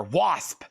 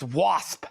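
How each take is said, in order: First: "Wasp" punched with a rising ring. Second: "Wasp" with a rising emphatic ring; emphatic band name. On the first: Showing viewers how to say the band name, emphatic. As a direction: give "Wasp" weight like a band chant. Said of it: "You gotta kinda say that with some emphasis". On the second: Naming the next crate record, emphatic. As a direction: punch "Wasp" like a metal name. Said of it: "say that with some emphasis like Slayer". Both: Shown as a demonstration.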